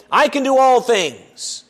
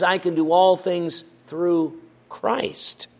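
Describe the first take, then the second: First: "I" pushed up with a fall; a clipped misquote with the weight on "I"; stress on I. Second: Slow, "all" rising toward "through Christ"; slow full reading. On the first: Preacher voicing the wrong reading, stress on I. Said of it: "The text doesn't say". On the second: Preacher giving the full verse, slow and deliberate. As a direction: let "through Christ" carry the weight. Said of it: "No, it says". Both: Shown as a demonstration.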